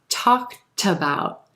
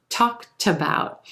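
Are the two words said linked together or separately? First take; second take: linked; linked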